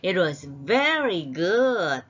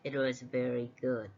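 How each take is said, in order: First: It is said with lively, warm feeling. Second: It is said flatly, without feeling. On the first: The praise gets through to the listener. The speaker calls it right. "이래야지" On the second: The praise does not get through to the listener. The speaker calls it wrong. "전달이 안 됩니다"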